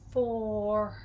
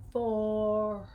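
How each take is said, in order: No difference in how they are said.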